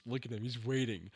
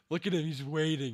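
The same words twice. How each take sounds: First: Said in the usual way. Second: A bit higher and louder; eager hype at the screen; rising excitement. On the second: Real, not acted. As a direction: lean in, getting hyped.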